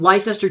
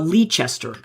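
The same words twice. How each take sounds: First: The word is said in its short modern form. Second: The word is said with more letters sounded. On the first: This is how it is said today. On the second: This is how it was said in medieval times.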